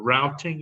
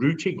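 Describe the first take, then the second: First: It is said with an American pronunciation. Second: It is said with a British pronunciation.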